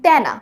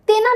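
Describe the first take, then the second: First: তেনা with open "ae", "taena"; open tyana. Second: তেনা with closed "e", "tena". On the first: Teacher shows what we actually say, open tyana. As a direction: open তেনা's first vowel as in "cat". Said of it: "আমরা বলি তেনা". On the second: Teacher shows what we don't say, closed tena. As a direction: say তেনা as spelt, "te-na". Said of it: "তেনা না বলে". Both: Shown as a demonstration.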